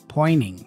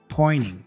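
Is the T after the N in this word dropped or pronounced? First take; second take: dropped; dropped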